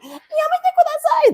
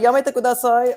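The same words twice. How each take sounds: First: It is said in an exaggerated put-on voice. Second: It is said in his plain natural voice.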